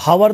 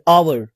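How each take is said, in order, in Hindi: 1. इस शब्द की शुरुआत h की आवाज़ से होती है। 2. इस शब्द की शुरुआत स्वर की आवाज़ से होती है। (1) "हावर नहीं पढ़ते" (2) "हम लोग क्या बोलते हैं? आवर"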